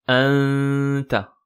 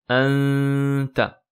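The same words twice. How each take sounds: The two takes are said the same way.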